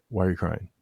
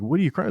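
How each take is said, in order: First: Understated, calm retold question. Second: Higher, incredulous retold question; retold disbelief. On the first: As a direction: gently ask a child what is wrong. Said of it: "like, calmly". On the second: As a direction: act out being baffled by a kid's tears. Startled dad confronts crying kid.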